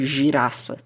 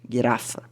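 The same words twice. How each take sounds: First: The first consonant is a soft J sound. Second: The first consonant is a hard G sound. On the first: The speaker calls it wrong. "O G nunca vai ter som de J, nunca vai ser como girafa ou gigante" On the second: The speaker calls it right. "É sempre gui"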